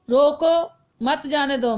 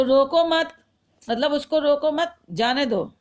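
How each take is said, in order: First: Slow रोको, a break, then मत जाने दो as one group; pause after रोको. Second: रोको मत as one group, then जाने दो apart; pause after मत. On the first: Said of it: "जैसे पहले वाले में". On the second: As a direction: keep रोको and मत together, break before जाने दो. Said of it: "लेकिन विराम चिन्ह अलग लग गया है". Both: Shown as a demonstration.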